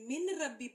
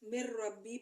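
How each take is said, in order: First: The n is pronounced clearly before the r. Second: The n merges into a doubled r sound. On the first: The speaker calls it wrong. "मिन रब्बी पढ़ने के बजाय" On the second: The speaker calls it right. "मिर रब्बी पढ़ा जाएगा"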